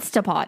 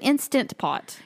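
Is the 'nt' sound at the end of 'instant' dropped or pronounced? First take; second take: dropped; pronounced. First: The 'nt' sound before 'pot' is dropped. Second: The 'nt' sound before 'pot' is pronounced. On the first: The speaker calls it wrong. "it's not an Instapot" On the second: The speaker calls it right. "It's an Instant Pot"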